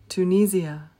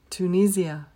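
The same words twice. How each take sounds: First: It is said with a British pronunciation. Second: The same.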